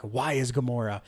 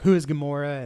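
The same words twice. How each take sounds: First: "Why is Gamora?" with why hit hardest, falling, a touch softer; stress on why. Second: "Who is Gamora?" with who hit hardest; stress on who. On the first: Quoting Drax, the joke lands on why. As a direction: lean on why, the punchline. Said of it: "Drax was like". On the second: Quoting the movie, puzzled guy stresses who. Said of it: "the other guy was like". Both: Retold or imitated.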